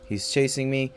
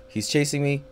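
The two takes are said the same way.

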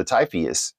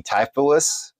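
First: Typheus, with an extra syllable before the final s; alternative pronunciation. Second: Typhus, offered as one possible pronunciation; tentative pronunciation. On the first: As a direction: offer Typheus as the other option, ending in ee-us. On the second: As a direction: try saying Typhus as the first option, unsure. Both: Shown as a demonstration. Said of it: "pronounce it as best I can".

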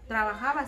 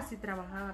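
First: "trabajaba" said louder with a rising tune; emphatic. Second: Said in the usual way. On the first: Real, not acted. Telling the interviewer about her new husband, a louder rising "trabajaba". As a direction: lift and push "trabajaba".

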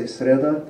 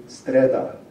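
First: Sreda with s straight into r, rising at the end; no inserted t. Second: Streda slowly, with t between s and r; inserted t. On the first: Lecturer giving the form not used, sreda without t. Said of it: "they don't say sreda". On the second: Lecturer demonstrating the dialect, streda with inserted t. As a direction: say streda carefully, sounding the extra t. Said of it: "they say streda". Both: Shown as a demonstration.

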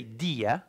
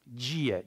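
First: Dia with a plain d; unwanted hard D. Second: Dia said "djia"; Brazilian pronunciation. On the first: Teacher showing what Brazilians avoid, dia with hard d. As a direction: say dia slowly as "dee-a". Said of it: "We don't say dia". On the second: Teacher correcting the hard D, Dia as "djia". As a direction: open Dia on a j sound. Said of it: "like the D becomes". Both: Shown as a demonstration.

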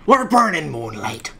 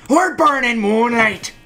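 First: Said in the usual way. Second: We're burning moonlight called out higher and louder, falling at the end; louder, higher take of We're burning moonlight; louder urging call. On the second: Shown as a demonstration. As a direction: urge them on, calling We're burning moonlight. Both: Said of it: "repeated louder".

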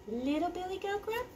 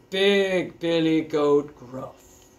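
First: High, soft little voice; little goat. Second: Slow, heavy big-goat voice. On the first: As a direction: introduce the tiny goat high and small. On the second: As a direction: draw the name out big and slow. Introduces the biggest goat. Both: A narrator's reading.

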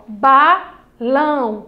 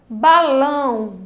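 First: "balão" lento, BA... LÃO; palavra dividida. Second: Said in the usual way. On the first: Shown as a demonstration. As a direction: separe "balão" em duas sílabas esticadas. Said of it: "ó, dividida". ("balão" silabado com pausa no meio) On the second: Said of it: "temos a palavra balão".

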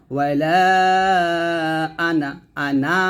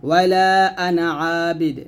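First: ওয়াইলা আনা with the final a of আনা drawn long; wrongly stretched আনা, as a warning; stretched ana, wrong. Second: ওয়াইলা আনা Abid with আনা kept short, no stretch; short ana, correct. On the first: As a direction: demonstrate the mistake by holding আনা. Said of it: "এই যে এভাবে টানলে কিন্তু". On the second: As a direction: read আনা quick and unstretched. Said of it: "এখানে আনাতে টান দেওয়া যাবে না". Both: Shown as a demonstration.

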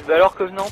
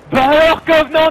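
First: Teasing call to Covenant; taunting call. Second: Loud taunt. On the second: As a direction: bellow the taunt really loud. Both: Shown as a demonstration. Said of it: "faut faire ça bien fort".

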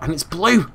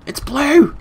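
First: Raised, louder note of delight; mildly excited exclamation; pleased discovery. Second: High, loud burst of glee; much higher, delighted exclamation; excited squeal. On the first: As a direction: perk up at the find. First take of excited discovery. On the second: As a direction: squeal it in triumph. Repeats discovery, much more excited. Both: Real, not acted.

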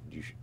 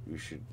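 Both takes have the same delivery.

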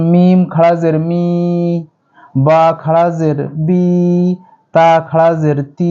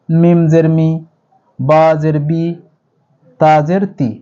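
First: Slow, each final vowel held long; drawn out one alif. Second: মি বি তি cut short and quick; quick short vowel. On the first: Teacher demonstrating the long vowel to students, drawn out. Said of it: "এগুলো এক আলিফ টেনে পড়বো". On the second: Teacher demonstrating the short vowel to students, quick. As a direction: clip each vowel short. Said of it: "কিন্তু এটি দ্রুত পড়বো". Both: Shown as a demonstration.

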